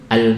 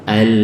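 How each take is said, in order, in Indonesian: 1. Bunyi l di akhir pendek, langsung terputus. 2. Bunyi l di akhir mengalir bebas, panjang. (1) "Kalau pendek sudah al, al" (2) "Mengalir bebas itu misal al, al, suaranya panjang"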